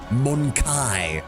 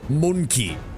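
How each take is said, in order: First: The stress is on the second syllable. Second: The stress is on the first syllable. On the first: "I'm gonna put an emphasis on the second syllable" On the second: "I guess that's the canon pronunciation"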